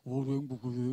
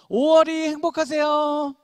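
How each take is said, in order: First: The greeting is said flatly, with a low pitch. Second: The greeting is said brightly, with a high pitch. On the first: The speaker calls it wrong. "아무도 밝은 사람이 없어" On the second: The speaker calls it right. "밝은 하이톤으로"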